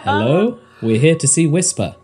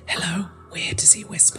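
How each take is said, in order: First: It is spoken in a normal voice. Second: It is spoken in a whisper.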